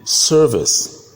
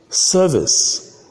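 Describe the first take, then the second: First: It is said with an r-colored vowel. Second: It is said without an r sound. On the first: "in American English" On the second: "All these I pronounce them in British English"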